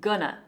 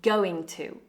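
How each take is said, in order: First: The two words are reduced to one. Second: Both words are said in full.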